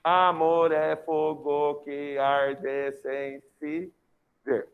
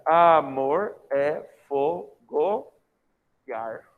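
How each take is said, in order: First: "Amor é fogo que arde sem se ver" very slow, every syllable separate; grammatical syllable count. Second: "Amor é fogo e ar" very slow, in separated beats, joining touching vowels; poetic syllable count. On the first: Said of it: "Sílaba gramatical". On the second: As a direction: scan "Amor é fogo e ar" with gaps and moving pitch. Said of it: "Na sílaba poética". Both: Shown as a demonstration.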